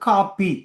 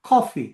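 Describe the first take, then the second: First: The first vowel is a long, flat a sound. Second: The first vowel is a rounded, open aw sound. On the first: This is how Tamil Nadu Tamils say it. "அதை நல்லா கிடையாக கொண்டு காப்பி" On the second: This is the English pronunciation. "அது ஒரு வகையில் சாய்வான ஒரு ஆ"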